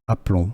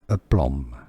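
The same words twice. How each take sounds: First: It is said with a French pronunciation. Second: It is said with an English pronunciation. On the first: "Aplomb in French" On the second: "English pronunciation"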